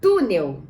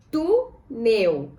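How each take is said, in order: First: Said in the usual way. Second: TÚ, pause, NEL; "Túnel" as tú... nel, held apart; syllable by syllable. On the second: Shown as a demonstration. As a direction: split "Túnel" into two separate syllables. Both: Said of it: "Vamos separar em sílabas".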